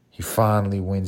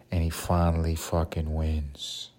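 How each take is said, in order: First: Finally wins said louder, punched; emphatic repeat. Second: Said in the usual way. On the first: Retold or imitated. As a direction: lean hard on finally wins. Win told, then repeated.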